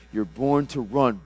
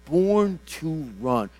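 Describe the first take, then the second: First: Slowed, louder proclamation with weight on run; emphatic declaration. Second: Higher, louder and very slow, hitting Born; emphatic repeat. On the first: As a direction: preach it out slowly, leaning on each word. Declaring her calling, then repeating. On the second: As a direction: stretch Born to run out like a proclamation. Repeating the declaration more strongly. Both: Acted.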